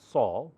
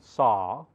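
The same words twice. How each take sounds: First: The vowel is less open. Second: The vowel is more open.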